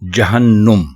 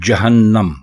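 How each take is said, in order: First: The vowel after the double n is 'u'. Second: The vowel after the double n is 'a'. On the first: The speaker calls it wrong. "नून के ऊपर पेश लगा देते हैं, जिससे ये गलत हो जाता है" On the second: The speaker calls it right. "दुरुस्त लफ्ज है जहन्नम"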